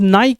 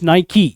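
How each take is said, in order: First: The word ends on the 'k' with no final vowel. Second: The word ends with an extra 'ee' vowel. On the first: The speaker calls it wrong. "It's not नाइक" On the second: The speaker calls it right. "It's नाइकी"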